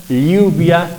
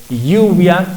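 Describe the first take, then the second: No difference in how they are said.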